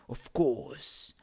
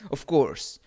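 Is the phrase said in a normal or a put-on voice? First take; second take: put-on; normal. First: It is said in a put-on character voice. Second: It is said in a plain natural voice.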